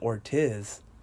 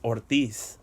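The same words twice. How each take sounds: First: The name is pronounced the English way. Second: The name is pronounced the Spanish way. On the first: The speaker calls it wrong. "Why is it that you pronounce it Ortiz?" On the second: The speaker calls it right. "In Spanish is Ortiz"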